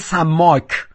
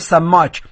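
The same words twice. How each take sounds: First: It is said in standard Arabic pronunciation. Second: It is said in local dialect pronunciation. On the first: "اما عربی فصیح میگه سماک" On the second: "به کسی که ماهیگیر باشه بهش میگیم"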